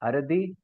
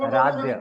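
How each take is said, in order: First: The name ends with a plain 'ee' sound. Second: The name ends with a 'ya' sound. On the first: The speaker calls it wrong. "am I pronouncing it right?" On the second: The speaker calls it right. "No, sir, Aradhya"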